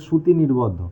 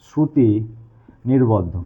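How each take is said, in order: First: Said in the usual way. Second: Shruti and নির্বদ্ধ as two separate words with a clear pause between; slow emphatic repeat. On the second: Shown as a demonstration. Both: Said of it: "কি বললাম?".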